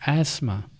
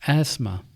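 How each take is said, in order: The two takes are said the same way.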